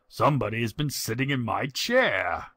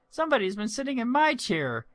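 First: It is said in a deep growling voice. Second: It is said in a high piping voice.

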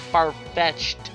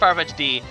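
First: The name ends without any added syllable. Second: The name ends with an added extra syllable. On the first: The speaker calls it right. "I said it right now" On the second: The speaker calls it wrong. "I always call it Farfetch'd D"

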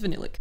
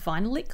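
First: The word starts like the word vanilla. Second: The word starts like the word vinyl. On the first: The speaker calls it right. "she says vanillic" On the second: The speaker calls it wrong. "I always thought it was vinylic lip, as in a lick of vinyl"

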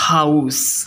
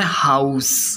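First: It is said with the noun pronunciation. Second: It is said with the noun pronunciation.

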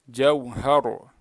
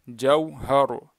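Both takes have the same delivery.

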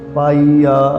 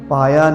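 First: The middle vowel is a long ii. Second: The middle vowel is a short i. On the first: The speaker calls it right. "ਈੜੀ ਨੂੰ ਬਿਹਾਰੀ ਹੈ" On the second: The speaker calls it wrong. "ਪਾਇਆ ਨਹੀਂ ਪੜ੍ਹਨਾ"

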